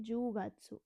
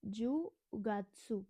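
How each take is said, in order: First: Said in the usual way. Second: जुगात्सु drawn out slowly, syllable by syllable; slow teaching demo of जुगात्सु; Japanese word jugatsu. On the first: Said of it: "क्या बोलते हैं?". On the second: Shown as a demonstration. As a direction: spell out जुगात्सु slowly for the class. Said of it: "अक्टूबर को क्या बोलते हैं?".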